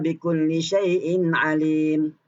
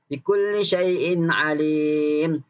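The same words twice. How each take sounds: First: The vowel is held for two counts. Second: The vowel is held for four counts.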